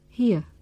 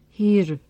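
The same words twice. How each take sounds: First: The word ends without an r sound. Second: The word ends with an r sound. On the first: The speaker calls it right. "we don't pronounce the r sound. Instead, we say here" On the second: The speaker calls it wrong. "not here"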